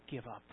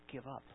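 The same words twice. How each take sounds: No difference in how they are said.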